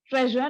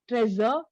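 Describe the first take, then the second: First: The middle consonant is a soft, French-like 'zh'. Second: The middle consonant is not a soft 'zh'. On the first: The speaker calls it right. "Pronunciation of treasure is treasure" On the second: The speaker calls it wrong. "not treasure"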